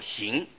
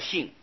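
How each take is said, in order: First: The syllable is said with a rising tone. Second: The syllable is said with a falling tone. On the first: The effort is still being practiced. "正在下功夫叫做行啊" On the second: The merit has already been accomplished. "这里念去声念成性"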